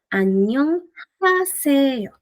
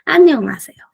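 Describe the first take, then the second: First: It is said slowly, syllable by syllable. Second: It is said smoothly at natural speed.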